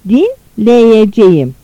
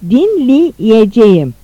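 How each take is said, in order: First: The vowel after dinl is an open e. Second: The vowel after dinl is a narrowed i. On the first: This is the written-language form. "Yazı dilinde" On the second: This is the spoken-language form. "Konuşma dilinde"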